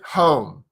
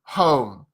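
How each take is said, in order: The two takes are said the same way.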